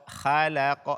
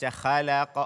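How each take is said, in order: No difference in how they are said.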